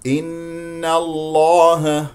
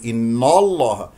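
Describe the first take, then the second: First: Very slow chanted إن الله, thin N and dark L; light N, heavy L. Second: إن الله with a dark inno, quicker; wrongly heavy N. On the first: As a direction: hold إن light, then thicken الله. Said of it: "إذا تفخم اللام". (إن الله بنون مرققة ولام مفخمة) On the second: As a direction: darken the نّ of إن by mistake. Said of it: "ولا تقل". (إن الله بنون مفخمة خطأً) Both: Shown as a demonstration.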